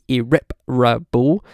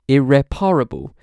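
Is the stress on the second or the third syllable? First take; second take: second; third. First: The stress falls on the second syllable. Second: The stress falls on the third syllable. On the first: "four syllables with the main stress on the second" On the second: "five syllables, the main stress on the third"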